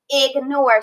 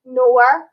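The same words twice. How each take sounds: First: Said in the usual way. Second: Ig, then nore, split apart; split into syllables. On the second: Shown as a demonstration. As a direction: sound out each syllable separately. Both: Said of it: "See how they both had a sound".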